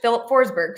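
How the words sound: The name is pronounced the English way. "but in English"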